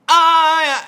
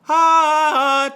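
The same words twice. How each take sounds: First: The vowel starts with a tight, pressed glottal catch. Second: The vowel starts smoothly with air and voice together. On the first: The speaker calls it wrong. "we tend to get too pressed of a sound" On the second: The speaker calls it right. "A neutral one is great"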